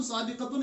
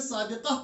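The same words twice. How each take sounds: First: साबिकतुन with the -tun fully sounded; साबिकतुन, case ending kept; full -tun ending. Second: साबिका closed with a breathed h; साबिका as said at a stop; pausal h ending. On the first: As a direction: pronounce साबिकतुन through to its -tun. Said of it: "साबिकतुन नहीं पढ़ते". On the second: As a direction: drop the -tun, end साबिका on -ah. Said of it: "साबिका पढ़ते हैं". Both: Shown as a demonstration.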